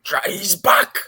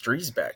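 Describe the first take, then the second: First: The name is said with heavy, exaggerated emphasis. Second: The name is said plainly, without extra emphasis. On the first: This is the original, supposedly proper pronunciation. "He put so much emphasis. He's like Dreisbach" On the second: This is the Americanized family pronunciation. "no, it's Driesbach"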